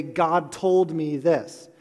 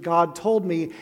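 First: Slow, weighty "God told me this" with "told" hit hard; mock overconfident. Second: Said in the usual way. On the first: Preacher mocking overconfident believers, slow and heavy on "told". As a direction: drag out "God told me this" like a know-it-all. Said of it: "people who a little too confidently say". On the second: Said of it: "when people start a sentence with".

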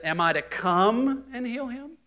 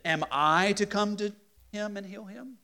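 First: High, slow, rising on come; slow rising question. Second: Rising question with weight on Am I; emphasis on come to him. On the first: Teacher trying the verse as a slow question. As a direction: draw the question out and lift it at the end. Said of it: "Or is it". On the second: Teacher reading the verse as a question, with emphasis. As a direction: ask it as a real question, leaning on the words. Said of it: "There's some emphasis there". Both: Shown as a demonstration.

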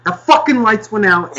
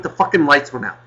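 First: Exasperated shout; angry outburst. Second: Said in the usual way. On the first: Real, not acted. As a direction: repeat it much higher and louder. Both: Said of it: "I'm getting angry at you guys".

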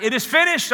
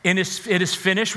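First: Higher, ringing proclamation; cried out. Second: Said in the usual way. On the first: Retold or imitated. Preacher voicing Jesus crying out on the cross, raised proclamation. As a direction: lift it up like a cry from the cross. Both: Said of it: "when Jesus cried out".

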